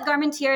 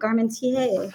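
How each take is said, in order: First: The name is pronounced in a plain, simple way. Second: The name is pronounced in a fancy, elaborate way. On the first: The company itself says it this way. "We just call it" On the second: Other people say it this way. "I really like to hear the fancy ways. People are like, oh"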